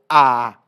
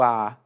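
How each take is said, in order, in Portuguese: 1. Os dois sons A são longos e exagerados. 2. Os dois sons A se fundem em um só. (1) "que é um A mais longo. Né? Claro, eu estou exagerando na minha pronúncia" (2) "Parece um só, mas são dois As"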